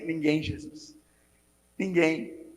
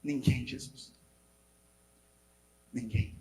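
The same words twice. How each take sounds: First: Soft reply. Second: Low, much softer answer; faint soft reply. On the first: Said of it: "você vai falar pra ele assim". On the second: The woman answering Jesus on the ground, soft and low. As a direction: barely voice the answer. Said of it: "Jesus fala com ela". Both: Retold or imitated.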